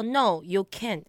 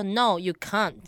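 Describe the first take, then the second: First: Said in the usual way. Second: "can't" with an open Australian ah; Australian accent. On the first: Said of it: "呃，就澳洲腔". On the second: Retold or imitated. Retelling a friend's English answer, imitated Australian accent. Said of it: "就澳洲腔".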